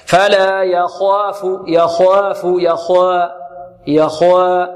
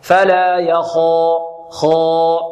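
First: Slow chant of "يخاف" with heavy kha but light alif; wrongly thin the long a after خ in "يخاف"; faulty tajweed demo, "يخاف" opening into a light alif. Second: Slow chant of "يخا" with a dark, rounded long a; heavy alif after kha. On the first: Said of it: "يفخم الخاء ولا يفخم الألف، فيقول هكذا". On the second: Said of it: "الألف لابد أن تفخم مع الخاء". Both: Shown as a demonstration.

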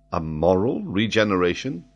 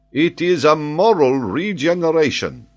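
First: Questioning echo. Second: "moral" hit high and loud, falling at the end; a grand falling announcement; stress on moral. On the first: Listener echoes in disbelief. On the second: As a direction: proclaim "moral regeneration" with weight on "moral". Reveals his claim emphatically. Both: Acted.

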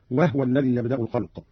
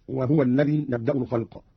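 First: وهو with a vowelless ha; وهو in two syllables, closing on the h; Qalun reading. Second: Said in the usual way. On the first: Shown as a demonstration. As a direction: say وهو as wah-wa. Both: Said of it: "قرأ قالون بإسكان الهاء هكذا".

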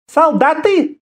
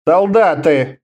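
First: High female exclamation; incredulous woman leader. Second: Understated mumble near normal pitch; mumbled reply. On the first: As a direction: throw it back in a high, imperious voice. Woman leader reacts with scornful surprise. (высокий удивлённый женский возглас) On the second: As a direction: mumble it reluctantly, without raising the voice. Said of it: "промямлил Абериус". (невнятно, мямля себе под нос) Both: A narrator's reading.

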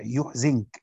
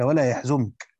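First: يحزنك with u on the ya, i on the zay; Nafi's reading. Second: يحزنك with a on the ya, u on the zay; standard reading. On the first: Teacher showing Nafi's reading, يحزنك said "yuḥzink". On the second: Teacher citing the verse to students, يحزنك said "yaḥzunk". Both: Shown as a demonstration. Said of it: "بضم الياء وكسر الزاي".

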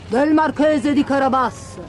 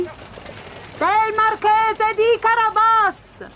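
First: Lightly voiced lone villager, falling tune; humble peasant's reply. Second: Very slow, high chanted answer; reapers answering in chorus. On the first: Bowing man answers the king, a hint of deference. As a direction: answer plainly as one man bowing to royalty. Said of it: "rispose l'uomo inchinandosi profondamente". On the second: Reapers answer the king together, high drawn-out chorus call. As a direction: sing it out like a whole group of peasants. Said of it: "risposero in coro i mietitori". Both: A narrator's reading.

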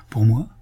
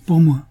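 First: Reined-in, questioning repeat; self-controlled. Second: Jolted, higher and louder; a sudden indignant start; startled indignation. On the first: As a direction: hold the indignation back, voice at normal pitch. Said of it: "Elle se domina encore et redit". (question maîtrisée) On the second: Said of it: "Elle avait tresauté. Indignation, colère, inquiétude". (sursaut indigné) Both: A narrator's reading.

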